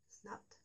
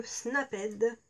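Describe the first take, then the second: First: Snapped as one syllable, "snapt"; soft retry of Snapped with a silent e; corrected Snapped. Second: Snapped in two syllables, "snap-èd"; French-accented Snapped. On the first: (Snapped en une syllabe, « snapt », tout bas) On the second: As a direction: sound out the -ed in Snapped as "èd". (Snapped prononcé à la française, « snap-ède ») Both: Real, not acted. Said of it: "Peut-être mieux. Mon super accent".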